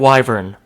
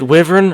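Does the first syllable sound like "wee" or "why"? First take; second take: why; wee. First: The first syllable sounds like "why". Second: The first syllable sounds like "wee".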